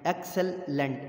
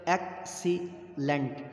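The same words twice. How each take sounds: First: Said in the usual way. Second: Slow, "Excellent" stretched syllable by syllable. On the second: Shown as a demonstration. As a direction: draw out each syllable of Excellent. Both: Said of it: "three syllable".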